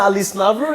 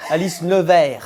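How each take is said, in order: First: "Never" said the English way, NAV-er with r; "Alice Never" with English vowel and final r; English-style Never. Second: "Nevers" said the French way, nuh-VAIR; "Alice Nevers" with French uvular r, stress on last syllable; French pronunciation Nevers. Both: Shown as a demonstration.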